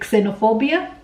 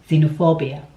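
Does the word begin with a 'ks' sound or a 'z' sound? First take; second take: ks; z. First: The word begins with a 'ks' sound. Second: The word begins with a 'z' sound. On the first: The speaker calls it wrong. "Unfortunately, that is wrong" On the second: The speaker calls it right. "The X is actually pronounced as Z"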